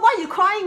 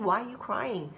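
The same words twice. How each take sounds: First: The voice sounds harsh and impatient. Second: The voice sounds gentle and kind. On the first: The crying is being scolded. The speaker calls it wrong. "you're not going to say like" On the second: The crying is being met with care. The speaker calls it right. "Different tone"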